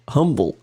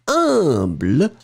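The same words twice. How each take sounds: First: It is said with English pronunciation. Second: It is said with French pronunciation. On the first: The speaker calls it right. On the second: The speaker calls it wrong.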